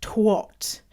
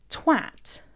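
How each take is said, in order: First: Twat with an O sound, rhymes with hot; imitating Canadian twat. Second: Twat with a clear A, rhymes with cat; British twat with the A; twat said right. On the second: Shown as a demonstration. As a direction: say twat as /twæt/, flat A. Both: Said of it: "Canadians pronounce it".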